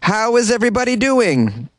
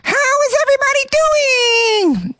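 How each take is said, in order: First: It is said in the speaker's normal voice. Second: It is said in an Elmo impression voice.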